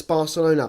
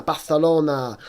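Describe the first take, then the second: First: Said in the usual way. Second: "Barcelona" with a lisped th for the c; Spanish pronunciation. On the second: Retold or imitated. Mimicking commentators who say "Barcelona" as Barthelona, lisped Spanish th. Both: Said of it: "those people who pronounce Barcelona".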